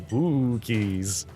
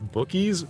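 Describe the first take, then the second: First: The first syllable sounds like 'boo'. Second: The first syllable sounds like 'book'. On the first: The speaker calls it right. "like how a ghost would say it" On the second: The speaker calls it wrong. "I would have said that wrong"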